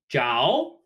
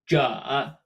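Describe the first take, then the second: First: The syllable is said with a rising pitch. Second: The syllable is said without a rising pitch.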